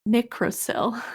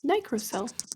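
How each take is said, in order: First: The first syllable sounds like 'nick'. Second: The first syllable sounds like 'nye'. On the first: The speaker calls it wrong. "So if it's derived from nickel, I would assume that it's pronounced nicrosil" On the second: The speaker calls it right. "Oh, nicrosil. That's fair"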